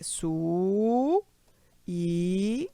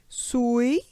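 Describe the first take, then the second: First: The vowels are split into two syllables. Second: The vowels are joined into one syllable. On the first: The speaker calls it right. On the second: The speaker calls it wrong.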